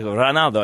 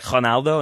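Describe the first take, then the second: First: The R is rolled. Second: The R is said like an H.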